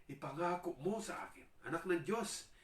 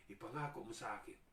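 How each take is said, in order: First: High, loud pleading; demon begging Jesus. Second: Said in the usual way. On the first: Acted. Demon pleading with Jesus not to torment it, high and loud. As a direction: beg desperately. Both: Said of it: "sabi niya".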